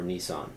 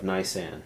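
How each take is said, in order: First: "Nisan" said as nee-SAHN; first syllable of "Nisan" like "knee", second like "sahn"; alternative pronunciation. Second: "Nisan" said as NYE-san; first syllable of "Nisan" like "nigh"; alternative pronunciation. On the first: Host offering the other name of the month, "Nisan" as nee-SAHN. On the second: Host reading out the name of the month, "Nisan" as NYE-san. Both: Shown as a demonstration. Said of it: "or Nisan".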